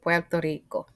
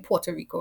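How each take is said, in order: First: The name is said with a Spanish accent. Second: The name is said with an English accent. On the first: The speaker calls it right. "Es Puerto Rico" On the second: The speaker calls it wrong. "I think most English people say Puerto Rico"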